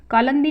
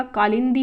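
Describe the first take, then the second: First: कालंदी with lan in the middle; incorrect form. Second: कालिंदी with lin in the middle; correct form. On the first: Teacher rejecting the misspelling, कालंदी with lan. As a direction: say कालंदी as kaa-lan-dee. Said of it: "कालंदी नहीं होता". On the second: Teacher giving the correction, कालिंदी with lin. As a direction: say कालिंदी as kaa-lin-dee. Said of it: "कालिंदी होता है". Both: Shown as a demonstration.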